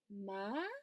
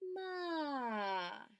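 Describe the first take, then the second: First: The pitch rises like a question. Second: The pitch falls like disappointment. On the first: "este es como si preguntaras" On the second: "vamos a hacerlo como si fuera de desilusión"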